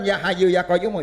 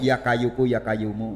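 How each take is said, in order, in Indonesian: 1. Diucapkan dengan bunyi h dan q Arab. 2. Diucapkan dengan logat Jawa dan bunyi k. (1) "Bacanya bukan" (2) "maaf logatnya logat Jawa"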